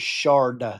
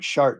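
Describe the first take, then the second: First: The word ends with a D sound. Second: The word ends with a T sound. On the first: The speaker calls it wrong. "the word was shard with a D at the end" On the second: The speaker calls it right. "my wife kept saying shart"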